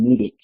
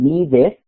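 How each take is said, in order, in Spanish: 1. La vocal final suena como una 'ih' corta. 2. La vocal final suena como una 'eh' clara. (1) "sino dicen needed" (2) "No dicen needed"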